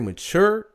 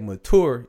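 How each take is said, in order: First: The word gets the younger people's pronunciation. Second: The word gets the older people's pronunciation. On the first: The person is under 40. "you under 40" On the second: The person is over 40. "you're over 40"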